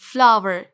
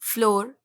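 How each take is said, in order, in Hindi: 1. यह शब्द 'flower' जैसा सुनाई देता है। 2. यह शब्द 'floor' जैसा सुनाई देता है। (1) "सही प्रोनाउंसिएशन है फ्लावर" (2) "आप इसको क्या पढ़ते हैं? फ्लोर"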